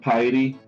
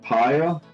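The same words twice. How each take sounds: First: It is said so that it does not rhyme with fire. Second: It is said so that it rhymes with fire. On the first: The speaker calls it wrong. "he was saying pyre" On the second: The speaker calls it right. "instead of saying pyre"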